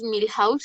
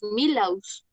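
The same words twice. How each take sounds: First: The H is sounded, like a breathy J. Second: The H is silent, as in Spanish. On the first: "no diríamos Milhouse" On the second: "si nosotros pronunciáramos Milhouse como pronunciamos la H en el español"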